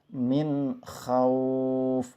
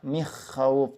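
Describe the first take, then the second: First: The n sound is pronounced clearly before kh. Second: The n sound is dropped before kh entirely. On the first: The speaker calls it right. "cara bacanya adalah jelas" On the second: The speaker calls it wrong. "Atau tidak dibaca"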